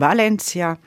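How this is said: The name is said with a Spanish pronunciation. The speaker calls it right. "sondern Valencia"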